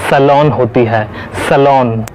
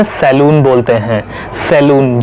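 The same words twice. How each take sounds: First: "सैलून" as suh-LON; correct pronunciation. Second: "सैलून" as seh-LOON; long "oo" in "सैलून"; wrong pronunciation. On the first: Teacher gives the salon fix, "सैलून" as suh-lawn. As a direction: open "aw" in the end of "सैलून". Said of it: "इसकी सही pronunciation". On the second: Teacher quotes what many say, "सैलून" as seh-loon. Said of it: "बिल्कुल गलत pronunciation है". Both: Shown as a demonstration.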